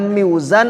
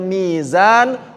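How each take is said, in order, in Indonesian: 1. Suku kata pertama punya bunyi peluncur w sebelum z. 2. Suku kata pertama adalah vokal ee panjang. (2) "Ditukar aja lah... biar gampang"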